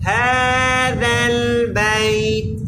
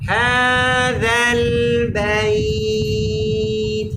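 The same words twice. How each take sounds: First: The vowel in bait is said short. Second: The vowel in bait is held long. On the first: The speaker calls it wrong. "শুধুমাত্র একটা জবরের উচ্চারণ হইল মাদের উচ্চারণ হয় নাই" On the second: The speaker calls it right. "আমরা বললাম হাযাল বাইত তাহলে ঠিক আছে"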